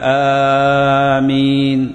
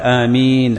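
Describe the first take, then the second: First: The first vowel is long, the m single. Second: The first vowel is short, the m single. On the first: "وتنطق على وزن فاعل فتقول آمين" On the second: "تقول آمين على وزن فعيل"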